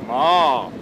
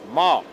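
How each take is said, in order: First: The pitch dips down, then rises again. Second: The pitch goes up. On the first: "oben anfängt, äh, ein bisschen runter geht und dann wieder hoch geht" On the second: "ein Ton, der nach oben geht"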